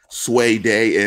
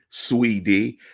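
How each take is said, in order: First: The vowels are not long E sounds. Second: The vowels are long E sounds. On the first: "you said Sway Day" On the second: "So I'm going to go long E's"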